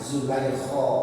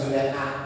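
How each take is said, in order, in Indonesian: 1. Diawali z dan berakhiran kho panjang. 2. Diawali bunyi j, berakhiran -leha. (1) "pakai kho ya, panjang" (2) "Kalau orang Indonesia Juleha"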